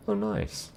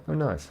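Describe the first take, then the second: First: Bright excited. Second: Said in the usual way. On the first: Real, not acted. Reacting to a chat message.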